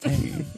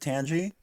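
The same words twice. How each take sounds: First: It sounds like the English word tangy. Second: It sounds like the start of tangerine. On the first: The speaker calls it right. "the word tangy exists in the English language and it's pronounced tangy" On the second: The speaker calls it wrong. "legitimately pronounces it Tangy"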